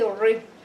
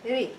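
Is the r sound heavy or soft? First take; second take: heavy; soft. First: The r sound is heavy and full. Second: The r sound is light and soft. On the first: The speaker calls it wrong. "you don't say ri" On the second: The speaker calls it right. "It's soft"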